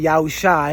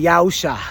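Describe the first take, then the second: First: The name ends with an 'eye' sound. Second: The name ends with an 'ah' sound. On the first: "Some people would say Yahushai because of that last letter" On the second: "I'm of the the belief that it's pronounced Ah"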